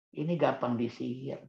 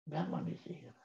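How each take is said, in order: First: Said in the usual way. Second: Much softer, almost to himself; soft echo. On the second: Shown as a demonstration. Speaker to parents, echoing his point much softer. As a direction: let the phrase fade as a quiet echo. Repeats the point, then echoes it.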